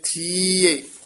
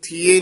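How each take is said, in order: First: The vowel after 'th' is lengthened into the ending. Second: The vowel after 'th' is plain, not lengthened. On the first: The speaker calls it right. "ਥੱਥੇ ਦੀ ਬਿਹਾਰੀ ਵਧਾ ਕੇ ਈੜੀ ਤੇ ਆਵਾਜ਼ ਛੱਡਾਂਗੇ" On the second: The speaker calls it wrong. "ਇਸਨੂੰ ਥੀਏ ਨੀ ਕਹਿ ਦੇਣਾ"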